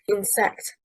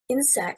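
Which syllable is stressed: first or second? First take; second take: second; first. First: The stress is on the second syllable. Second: The stress is on the first syllable. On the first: The speaker calls it wrong. "stressing on the second syllable, is incorrect" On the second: The speaker calls it right. "stressing on the first syllable"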